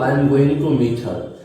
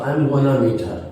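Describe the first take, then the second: First: 'Going to' is said fully as two words. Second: 'Going to' is reduced to a single 'gonna'.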